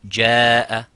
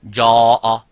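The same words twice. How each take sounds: First: The long vowel sounds light and thin. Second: The long vowel sounds heavy and full. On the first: The speaker calls it right. "light and empty mouth" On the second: The speaker calls it wrong. "you wouldn't say"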